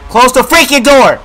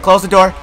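First: High, loud shouted order; panicked shout. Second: Said in the usual way. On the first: Real, not acted. Scared player ordering the door closed, panicked shout. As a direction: yell the repeated order with force.

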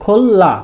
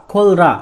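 First: খোল্লা said slowly with a long double l; assimilated pronunciation. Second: খোল রা as two parts, l then r; unassimilated pronunciation. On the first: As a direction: turn the r into l in খোল্লা. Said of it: "এই প্রথম শব্দটির উচ্চারণ". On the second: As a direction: keep the r in খোল রা, spelled-out reading. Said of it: "উচ্চারণটি হওয়ার কথা ছিল". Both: Shown as a demonstration.

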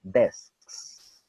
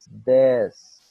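First: Said in the usual way. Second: Desks said much louder; loud, punched Desks for drilling; Desks, repeated with force; emphatic repeat. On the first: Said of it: "les va a dar un poquito de problema". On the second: Shown as a demonstration. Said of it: "over and over again".

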